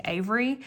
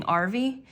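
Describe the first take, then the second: First: Said in the usual way. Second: Arvy with an R, "AR-vee", instead of Avery; toddler mispronunciation. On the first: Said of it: "instead of saying Avery". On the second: Shown as a demonstration. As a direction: say Arvy the way a little kid does. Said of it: "he's saying Arvy".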